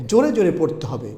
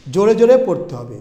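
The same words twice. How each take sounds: First: Said in the usual way. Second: Louder, brisk and insistent; loud reading. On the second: Shown as a demonstration. Teacher tells students how to read, loud and brisk. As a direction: push the words out loudly.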